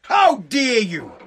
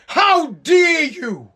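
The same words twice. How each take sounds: First: Slow, dropped to normal pitch and level; mock outrage, pulled back. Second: Hammed-up shout, very slow and drawn out; mock outraged shout. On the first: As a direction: let the outrage sink, still drawn out. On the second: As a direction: bellow it like a wailing protester. Mocking outraged protesters, climax.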